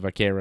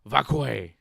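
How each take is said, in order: First: The surname is said in its usual form. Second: The surname is said in a distorted form. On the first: The speaker calls it right. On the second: The speaker calls it wrong.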